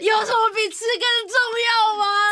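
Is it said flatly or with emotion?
with emotion. It is said with strong emotion.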